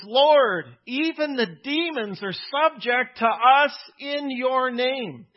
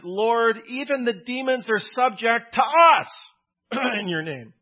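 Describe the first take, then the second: First: Said in the usual way. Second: "us" punched high and loud, held long; stress on us. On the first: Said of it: "You see the emphasis?". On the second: Retold or imitated. Preacher reading the verse to the congregation, stress on "us". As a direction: lean hard on the word "us" like a boasting preacher. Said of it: "as one preacher reads it".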